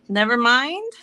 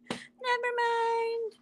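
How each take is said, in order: First: Said in the usual way. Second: High, slow laughing repeat. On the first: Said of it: "repeats child's words". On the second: Real, not acted. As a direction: laugh through the words.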